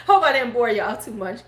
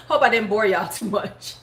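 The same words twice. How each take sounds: First: Said in the usual way. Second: Said through laughter; laughing. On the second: Real, not acted. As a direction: giggle while apologizing. Laughing at end of story.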